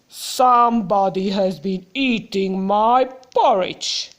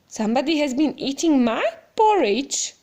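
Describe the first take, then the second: First: It is said in a loud, growly voice. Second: It is said in a plain, not growly voice.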